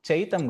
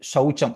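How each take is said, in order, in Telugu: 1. ఈ పదం 'ch' శబ్దంతో మొదలవుతుంది. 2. ఈ పదం 'sh' శబ్దంతో మొదలవుతుంది. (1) "చైతం కాదు"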